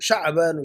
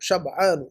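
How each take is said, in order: First: The first vowel is long, with no break. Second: The first vowel is short, followed by a break. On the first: The speaker calls it wrong. "आपने गलत याद किया" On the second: The speaker calls it right. "शब रात के लिए जो लफ्ज़ इस्तेमाल होता है ना शब, वो शब। और आनु"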